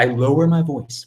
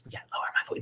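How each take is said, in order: First: Said in the usual way. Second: Whispered, barely audible; lowered voice. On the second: Shown as a demonstration. Streamer minding the neighbours next door, lowered to a whisper. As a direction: drop right down into a whisper.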